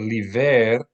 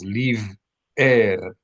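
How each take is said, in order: First: The word runs together with no glottal break. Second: A glottal stop splits the word into two syllables. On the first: The speaker calls it wrong. "which would be one syllable" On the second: The speaker calls it right. "it should be two syllables"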